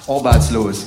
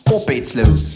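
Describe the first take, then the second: First: It is said in the Harz dialect. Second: It is said in a Saxon accent.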